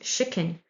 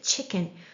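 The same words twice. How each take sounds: First: The word begins with an sh sound. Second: The word begins with a ch sound. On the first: It is spelled with sha alone on some menus. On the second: It is spelled with ta before sha on other menus.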